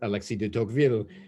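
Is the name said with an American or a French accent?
French. The name is said with a French accent. "I just tried to pronounce his name in the French accent as best I could"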